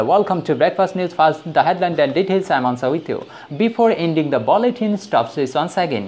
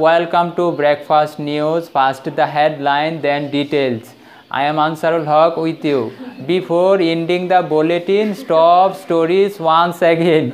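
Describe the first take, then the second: First: Slow, measured lightly mimicked news anchor; newsreader imitation. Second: Slow, lower, halting Bangla-accented English; poor English pronunciation. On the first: Teacher mimics TV news anchor for students, slow and measured. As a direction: read it like a TV newsreader opening the bulletin. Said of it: "টিভিতে যখন খবর দেখেন, কীভাবে বলে?". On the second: Shown as a demonstration. Teacher mocks learners' English news reading, slow and halting. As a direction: drag out each word the way a learner mispronounces it. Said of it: "এখন আমাদের ইংরেজি কীরকম?".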